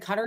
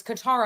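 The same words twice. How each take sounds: First: Qatar said "CUT-er"; first-syllable Qatar. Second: Qatar said "kuh-TAR", stress at the end; corrected Qatar. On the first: Shown as a demonstration. Host recalling what got corrected, Qatar as CUT-er. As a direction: say Qatar like "cutter". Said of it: "I've been corrected when I said". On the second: Retold or imitated. People correcting the host, Qatar as kuh-TAR. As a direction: hit the second syllable of Qatar, kuh-TAR. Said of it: "people were like".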